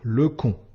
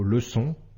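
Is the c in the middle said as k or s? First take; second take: k; s. First: The middle consonant is a k sound. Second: The middle consonant is an s sound. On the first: The speaker calls it wrong. "le son QUE" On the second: The speaker calls it right. "le son SE"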